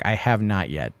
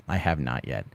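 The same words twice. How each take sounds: First: Said in the usual way. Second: Repeated much softer and lower, trailing off; an under-the-breath second answer; quiet repeat. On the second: Real, not acted. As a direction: drop it to a murmured echo.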